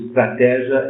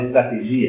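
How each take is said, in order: First: The stress falls on the syllable té. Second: The stress falls on the syllable gi. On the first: This is the Portuguese pronunciation inherited through Latin. "o estratégia está uh, justificado pelo latim" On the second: This is the original Greek pronunciation. "em grego fala estratégia"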